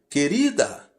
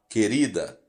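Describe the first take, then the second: First: It is said in a raised, loud voice. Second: It is said in a low, soft voice.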